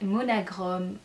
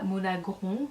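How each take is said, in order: First: The name ends with a clearly pronounced m. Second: The name ends with a nasal vowel. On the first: The speaker calls it right. "c'est Monagrom" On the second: The speaker calls it wrong. "ne dites pas Monagron parce que là ça fait très moche"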